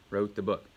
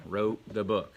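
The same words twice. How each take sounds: The two takes are said the same way.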